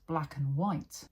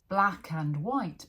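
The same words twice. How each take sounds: First: The word 'and' shrinks to only an 'n'. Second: The word 'and' is said in full.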